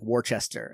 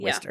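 First: It is said with an added H sound. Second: It is said in the local pronunciation. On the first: Some people wrongly say the name this way. The speaker calls it wrong. "a lot of people put H's in there" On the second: This is how locals say the town's name. The speaker calls it right. "Everyone pronounces it Worcester"

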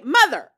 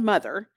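First: The word is said with excited exclamation. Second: The word is said in a condescending tone. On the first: The film is treated with enthusiasm. The speaker calls it right. "Exclamation point" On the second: The film is looked down on. The speaker calls it wrong. "Don't say it condescending like that"

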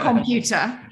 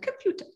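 First: It is said with a Yorkshire twang. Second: It is said in a posh accent.

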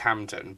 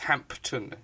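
First: The p sound is not pronounced. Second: The p sound is clearly pronounced. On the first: This is how people usually say it. The speaker calls it wrong. "everyone says Hampden" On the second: This follows the spelling of the name. The speaker calls it right. "but it's got a P in it. It's Hampton"

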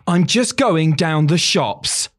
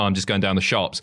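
First: It is said in an overly dramatic way. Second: It is said in a plain, everyday way. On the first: "delivered in like the most dramatic way possible" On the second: "if the line was"

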